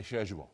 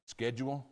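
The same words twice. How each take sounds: First: British schedule, shed-yool; British pronunciation. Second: Schedule with a hard sk, SKED-jool; American schedule, sk-ed-jool; American pronunciation. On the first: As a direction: say schedule the English way, sh sound. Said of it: "In England, we say schedule". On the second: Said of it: "see if I can say it in American". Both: Shown as a demonstration.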